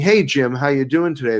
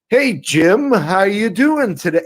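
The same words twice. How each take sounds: First: It is said in a relaxed, natural way. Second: It is said in an exaggerated, overacted way. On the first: The speaker calls it right. "instead of saying" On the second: The speaker calls it wrong. "They're going, ... overacting"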